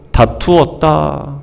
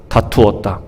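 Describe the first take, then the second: First: Slow weighty reading. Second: Quiet echo. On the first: Preacher reads the verse slowly. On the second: Preacher repeats the verse word. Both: Shown as a demonstration.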